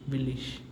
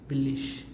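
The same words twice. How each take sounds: No difference in how they are said.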